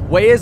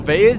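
First: The name is pronounced the English way. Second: The name is pronounced the German way.

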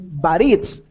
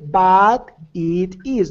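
First: The words 'it is' are contracted. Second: The words 'it is' are said in full. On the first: The speaker calls it right. "you say but it's. Paint the words. Fluid" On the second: The speaker calls it wrong. "You don't say but it is"

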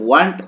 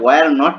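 First: It is said as one short contracted word. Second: It is said as two full separate words. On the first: The speaker calls it right. "বলে ওয়ান্ট উচ্চারণ হবে" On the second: The speaker calls it wrong. "এটা ওয়ার নট না"

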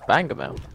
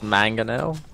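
First: The word begins with a B sound. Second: The word begins with an M sound. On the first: This is a joking Spanglish form of the word. "but in Spanglish, it's Bangomel" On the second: This is the English form of the word. "If you want it in English, it's Mangonel"

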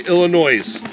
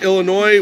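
First: The word ends with an s sound. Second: The word ends without an s sound. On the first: This is how outsiders say it. The speaker calls it wrong. "We don't say Illinois" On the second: This is how locals say it. The speaker calls it right. "we say Illinois"

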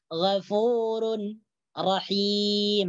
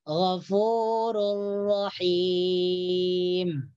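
First: The n is pronounced clearly before the r. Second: The n merges completely into the following r. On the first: The speaker calls it wrong. "Ini salah" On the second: The speaker calls it right. "tanwin di sini tidak dibaca"

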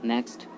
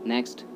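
Both takes have the same delivery.

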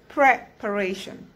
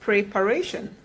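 First: The first vowel is an E sound. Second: The first vowel is an I sound. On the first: The speaker calls it right. "the first E takes an E sound and not an I sound. So you say preparation" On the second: The speaker calls it wrong. "people often call it preparation"

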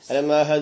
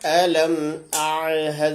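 First: The ain sound in a'had is dropped. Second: The ain sound in a'had is clearly pronounced. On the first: The speaker calls it wrong. "ഐന നഷ്ടപ്പെട്ടു പോരുത്. അലം അഅ്ഹദ് എന്ന് പറഞ്ഞ് പോരുത്" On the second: The speaker calls it right. "അവിടെ അലം അഅ്ഹദ് തന്നെ ഓതണം"

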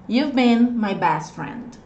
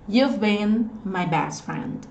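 Both takes have the same delivery.

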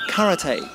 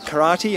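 First: Karate is said in the Japanese way. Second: Karate is said in the Australian way.

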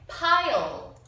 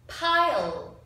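The two takes are said the same way.

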